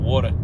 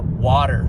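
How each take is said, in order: First: It is said with a New York accent. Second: It is said without a New York accent. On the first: This is the speaker's native way of talking. "instead of water" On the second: The speaker is hiding his native accent. "water instead of"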